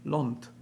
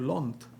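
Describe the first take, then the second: First: The vowel is a rounded 'aw' sound. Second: The vowel is a rounded 'aw' sound.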